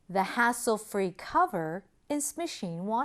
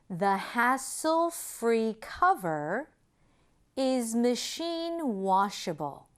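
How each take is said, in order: First: The sentence is spoken at a faster pace. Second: The sentence is spoken at a slower pace.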